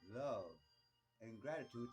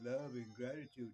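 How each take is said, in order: First: It is said sincerely and warmly. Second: It is said in a shallow, flippant way. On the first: The feeling is truly meant. The speaker calls it right. "I'm coming from here" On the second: It is said only because it is fashionable. The speaker calls it wrong. "oh, ... That's the thing to say now, dude. Yay"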